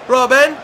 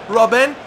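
The two takes are said the same way.

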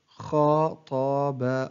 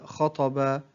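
First: Very slow, each syllable drawn out separately; broken into syllables. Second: Said in the usual way. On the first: Shown as a demonstration. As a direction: sound out the word syllable by syllable. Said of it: "تقطع الكلمة إلى حروف". (تقطيع الكلمة ببطء شديد مقطعًا مقطعًا) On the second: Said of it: "تقطع الكلمة".

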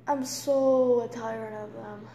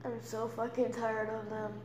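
First: Slow, heavy exhausted line; real tiredness, slow; weary. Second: Softer, defeated repeat; same words dropped low, beaten; exhausted. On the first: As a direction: drag it out, worn down. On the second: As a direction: let it sink down, emptied out. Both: Real, not acted.

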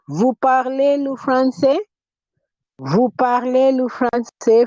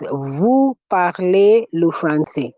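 First: "Vous parlez le français" held high as a question; question intonation. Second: Said in the usual way. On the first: Shown as a demonstration. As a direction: say "Vous parlez le français" pitched up, asking rather than stating. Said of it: "if I use intonation". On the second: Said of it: "our original statement is".

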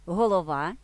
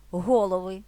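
First: Голова with the stress at the end: головА; stress on last syllable. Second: Голови with the stress at the start: ГОлови; stress on first syllable. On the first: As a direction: land firmly on ВА in Голова. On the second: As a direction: hit ГО in голови. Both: Shown as a demonstration. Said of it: "наголос може змінюватися".

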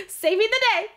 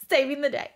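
First: Saving the day squealed much higher and a bit louder; fangirling. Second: Said in the usual way. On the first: Real, not acted. Fan cheering Rune on, Saving the day squealed high. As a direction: gush it like a thrilled fan. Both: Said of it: "I'm done fangirling".

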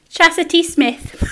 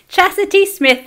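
First: The name said slow in broad Geordie, with a laugh; Geordie accent. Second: Higher, laughing Geordie take on the name; Geordie accent. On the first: Reading a viewer's name in Geordie as she asked. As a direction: say it in thick Geordie. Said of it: "wanted to hear me say her name in my accent". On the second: Repeating the viewer's name in Geordie, laughing. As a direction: say the name again in Geordie, giggling. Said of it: "that's how I say your name in Geordie". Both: Shown as a demonstration.

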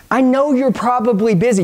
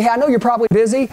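First: "I know you're probably busy" said deliberately; unhurried, step-by-step demonstration; measured script line. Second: "I know you're probably busy" rattled off fast; very quick, casual aside; quick reassurance. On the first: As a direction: take your time over the line. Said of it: "Follow me". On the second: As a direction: rush it out before they hang up. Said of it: "This is only gonna take a second". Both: Shown as a demonstration.

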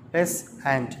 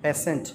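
First: Slow "peasant" in two separate beats; syllable by syllable. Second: Said in the usual way. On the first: Shown as a demonstration. Teacher counting syllables for children, "peasant" slowly split in two. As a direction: break "peasant" into pea and sant with a pause. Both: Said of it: "two syllables".

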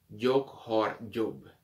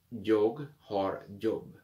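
First: "Jag har jobb" spoken very slowly; slow model sentence. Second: "Jag har jobb" again very slowly; slow repeat. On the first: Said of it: "slow model sentence". (frase lenta "Jag har jobb") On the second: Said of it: "repeat slowly". (repetición lenta) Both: Shown as a demonstration.

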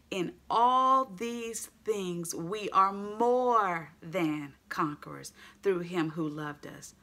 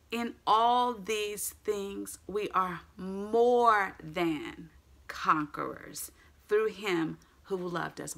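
First: Slow, stretched reading; emphatic scripture. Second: Very slow, drawn-out verse; emphatic scripture. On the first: Preacher to congregation, dwelling slowly on the verse. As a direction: draw out every word of the verse. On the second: Preacher repeating the focus verse, slow and emphatic. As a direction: lean hard into each word. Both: Acted.

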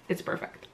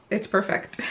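First: Playful whisper. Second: Said in the usual way. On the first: Shown as a demonstration. To viewers, repeating her praise as a whispered secret. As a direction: whisper "It's perfect." very softly, almost breath only. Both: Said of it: "Did I say that it's perfect?".

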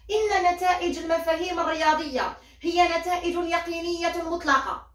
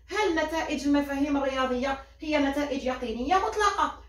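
First: "إن" stressed, a claim read out with a closing fall on مطلقة; read as a statement. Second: "هل" stressed at the start, the claim recast as a question; turned into a question. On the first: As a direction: quote the text's opening as a claim. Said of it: "يعطيك النص تاعك يبدأ هكذا". (قراءة جملة النص كتقرير ينتهي بنبرة هابطة) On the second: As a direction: pose it to the class as the problem. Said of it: "انت واش دير؟". (تحويل الجملة إلى سؤال يبدأ بـ"هل") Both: Shown as a demonstration.

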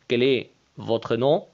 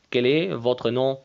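Both takes have the same delivery.

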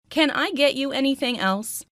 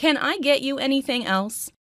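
No difference in how they are said.

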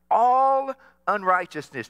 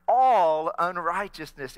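First: Loud, stressed "all unrighteousness" to lead the response; emphatic call. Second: Loud, slow "All unrighteousness", "All" drawn out; slow it down so everyone joins; slower second try. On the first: Pastor calling the church to repeat the word, loud. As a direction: hit "all" hard so the room echoes it. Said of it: "say that word". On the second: Pastor retrying when only two answered, slow and loud. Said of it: "Let's try that one more time". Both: Shown as a demonstration.

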